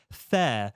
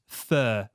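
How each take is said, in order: First: "fair" with an open standard vowel; careful fair. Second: "fur" for fair, northern vowel. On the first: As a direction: say "fair" carefully, not "fur". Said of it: "very conscious of trying to say fair". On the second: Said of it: "I pronounce that as fur". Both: Shown as a demonstration.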